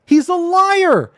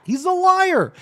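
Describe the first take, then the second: First: High, loud and slow, every word hammered; slow angry verdict. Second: High, quicker, clipped repeat; angry verdict. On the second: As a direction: snap it out once more. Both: Real, not acted. Denouncing the accuser.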